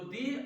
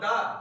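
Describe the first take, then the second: First: The vowel is a long 'ee' sound. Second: The vowel is a short 'uh' sound. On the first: The next word starts with a vowel. "इसमें हम दी का प्रयोग करते हैं" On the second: The next word starts with a consonant. "इसके लिए हम दा शब्द का उच्चारण करते हैं"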